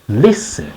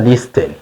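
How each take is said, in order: First: The t sound in the middle is dropped. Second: The t sound in the middle is pronounced. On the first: The speaker calls it right. "tuvuga listen" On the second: The speaker calls it wrong. "ntabwo tuvuga listen"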